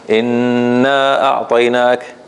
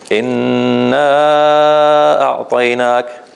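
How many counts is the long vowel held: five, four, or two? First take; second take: two; five. First: The long vowel is held for two counts. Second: The long vowel is held for five counts. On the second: "or five"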